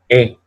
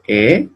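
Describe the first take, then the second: First: "E" as a more open eh, with emphasis; open, emphatic E. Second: First "E" as closed French é. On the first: Teacher contrasting two vowels for students, open emphatic E. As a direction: open up the "E" like French è. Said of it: "Un poco más abierta y más". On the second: Teacher contrasting two vowels for students, closed E. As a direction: say "E" narrow, close to ay. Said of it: "Un poco más abierta". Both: Shown as a demonstration.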